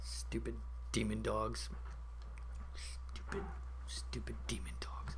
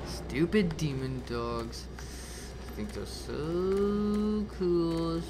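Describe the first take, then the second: First: Very soft grumble; hushed, near-whispered grumbling; sulky muttering. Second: Slow, stretched-out grumbling; very slow, sulky jeer; mocking grumble. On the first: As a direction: mutter bitterly under your breath. Sulking after deaths. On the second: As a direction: drag the words out with scorn. Mocking the dogs after dying. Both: Real, not acted.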